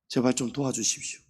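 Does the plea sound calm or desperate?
calm. The plea is said calmly, without urgency. The need is not truly felt. The speaker calls it wrong. "이렇게 안 합니다"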